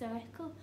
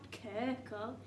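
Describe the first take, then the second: First: The word begins with a soft s sound. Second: The word begins with a hard k sound. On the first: The speaker calls it right. "it's circle" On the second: The speaker calls it wrong. "not kirkle"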